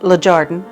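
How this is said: It is said with an English accent.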